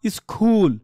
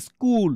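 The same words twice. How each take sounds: First: স্কুল with a breathy kh, as "iskhool"; স্কুল mispronounced with খ in place of k; wrongly aspirated k. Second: স্কুল as "iskool", no puff after k; correct unaspirated k. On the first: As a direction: puff air after the k in স্কুল. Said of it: "সির উচ্চারণ খ হয়". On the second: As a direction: say স্কুল with a hard plain k. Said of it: "স্কুলেই কিন্তু হবে এটা". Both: Shown as a demonstration.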